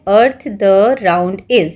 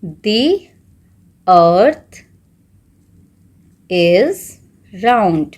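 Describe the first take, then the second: First: Very slow, word-by-word reading of the scrambled order; slow reading of the jumbled sentence; jumbled words read slowly. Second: Each word spaced out with long pauses; slow dictation of the corrected sentence. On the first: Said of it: "तो क्या है". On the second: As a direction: dictate word by word for students to write. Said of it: "तो आप क्या लिखेंगे". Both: Shown as a demonstration.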